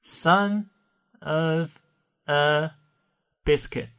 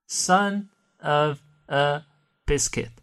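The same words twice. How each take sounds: First: "Son" "of" "a" "biscuit" said as separate words with pauses between; careful unlinked reading. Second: "Son of a" drawn out slowly and run together, then "biscuit"; slow blended demo; slow linked reading. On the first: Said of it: "这个短语如果不连读，慢慢读是这样的". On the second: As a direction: glide slowly through "Son of a biscuit" with no breaks. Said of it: "如果不连读，慢慢读". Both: Shown as a demonstration.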